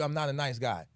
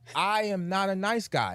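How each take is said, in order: First: It is said at normal speed. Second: It is said slowly.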